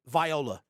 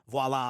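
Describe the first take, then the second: First: It sounds like the name Viola. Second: It sounds like the usual word voila. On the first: The speaker calls it wrong. "I know that's not how you say it" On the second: The speaker calls it right. "instead of saying voila"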